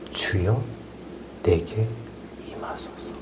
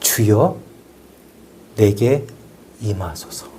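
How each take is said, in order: First: The phrase is barely voiced, very quiet. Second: The phrase is spoken aloud at normal volume. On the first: The prayer is kept inward, like a low simmer. "속으로 하거나 입만 뻥끗거린 거예요. 아주 작은 목소리로" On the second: The prayer is said out loud while working. "입으로"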